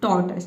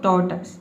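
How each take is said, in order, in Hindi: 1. शब्द छोटी 'tus' आवाज़ से खत्म होता है। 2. शब्द छोटी 'tus' आवाज़ से खत्म होता है।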